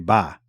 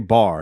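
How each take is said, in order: First: It is said in a Northeastern accent. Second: It is said without a Northeastern accent. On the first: "y'all say ba" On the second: "y'all don't say bar"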